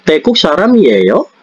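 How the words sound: The pitch rises at the end. It asks whether the person is Thai.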